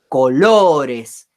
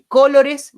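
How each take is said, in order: First: The stress is on the middle syllable. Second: The stress is not on the middle syllable. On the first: The speaker calls it right. "yo digo colores" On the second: The speaker calls it wrong. "no digo ni colores"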